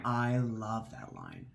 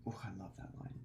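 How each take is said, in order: First: Said in the usual way. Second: Very soft, breathy-low savoring; hushed savoring ooh; hushed delight. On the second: Real, not acted. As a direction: murmur it to yourself in awe. Savoring repeated remark.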